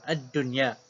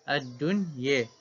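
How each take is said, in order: First: The final vowel is a clear open a. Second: The final vowel is bent fully toward e. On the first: "baca dengan bil fathi sahaja" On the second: "baca dengan imalah ad-dunya"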